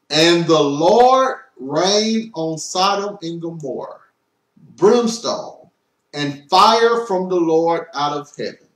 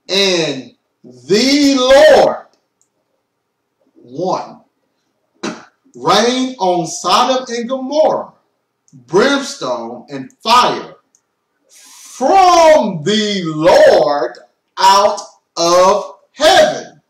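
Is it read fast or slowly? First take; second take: fast; slowly. First: It is read at a faster pace. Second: It is read at a slower pace.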